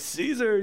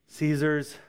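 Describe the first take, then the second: First: The word is said clearly and openly. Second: The word is mumbled quietly and indistinctly. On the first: The speakers gladly claim him as their own. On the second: The speakers are reluctant to admit it.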